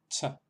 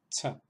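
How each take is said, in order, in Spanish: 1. La consonante se pronuncia con soplo de aire. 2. La consonante se pronuncia con soplo de aire.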